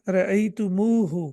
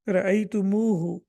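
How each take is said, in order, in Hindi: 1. m के बाद वाला स्वर लंबा है। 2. m के बाद वाला स्वर लंबा है।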